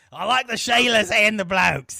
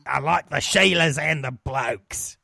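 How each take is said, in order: First: Louder, higher hammed-up Australian accent. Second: Put-on broad, slow Australian accent. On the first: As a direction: ham up the Aussie bloke. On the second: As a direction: drawl it out like an Aussie bloke. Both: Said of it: "say in an Australian kind of accent".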